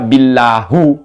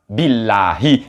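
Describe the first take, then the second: First: The word ends with an 'u' vowel. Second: The word ends with an 'i' vowel. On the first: The speaker calls it wrong. "jangan dibaca billahu gitu" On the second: The speaker calls it right. "kemasukan ba billahi"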